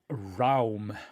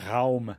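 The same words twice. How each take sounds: First: It is pronounced the English way. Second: It is pronounced the German way.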